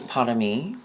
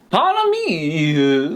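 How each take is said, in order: First: It is said in the speaker's plain accent. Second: It is said in a put-on British accent.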